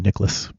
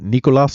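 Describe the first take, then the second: First: The name is said in a plain, ordinary accent. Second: The name is said in a put-on foreign accent. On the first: "Could just be Nicholas" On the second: "That's a terrible accent of I don't even know what accent it would be"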